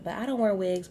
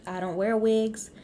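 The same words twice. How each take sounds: First: Firm repeat, weight on "wear"; stress on wear. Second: "wigs" hit loud and a touch high; emphatic denial, "wigs" punched; stress on wigs. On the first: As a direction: punch "wear" in "I don't wear wigs". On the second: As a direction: lean hard on "wigs" with a firm drop. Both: Real, not acted.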